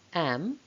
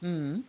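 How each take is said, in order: First: The word is said in its full form. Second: The word is said in a reduced weak form. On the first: "Am becomes" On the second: "becomes mm"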